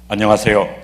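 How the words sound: The voice is deep and full, like a baritone. The speaker calls it right. "바리톤 목소리 같죠?"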